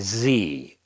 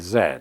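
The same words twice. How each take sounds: First: It is said the American way, as zee. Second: It is said the British way, as zed.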